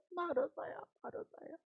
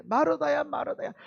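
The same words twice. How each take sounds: First: Soft, then almost whispered; earnest plea, fading. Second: Earnest plea. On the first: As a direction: call her name gently, letting it die away. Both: Retold or imitated. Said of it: "두 번 얘기하는 것은 간곡한 거예요".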